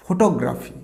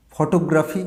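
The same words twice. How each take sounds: First: ফটোগ্রাফি with a round "fo" first, falling end; correct pronunciation. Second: ফটোগ্রাফি with open "aw" first and "o" on the t, rising; common mispronunciation. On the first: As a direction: say ফটোগ্রাফি as "FO-taw-graphy". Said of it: "উচ্চারণটা হবে". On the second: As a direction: say ফটোগ্রাফি as "faw-TO-graphy", questioning end. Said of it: "না, this is not". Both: Shown as a demonstration.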